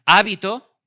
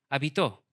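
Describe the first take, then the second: First: "Hábito" stressed on the opening HÁ; stress on first syllable. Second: "Hábito" said as habiTÓ, stress on the last syllable; stress on final O. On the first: Preacher showing the congregation how accent sets meaning, "Hábito" stressed on HÁ. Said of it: "según el acento puede tener distintos significados". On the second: Preacher moving the accent for the congregation, "Hábito" stressed on final Ó. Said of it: "cámbiale el acento y ponlo en la O". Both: Shown as a demonstration.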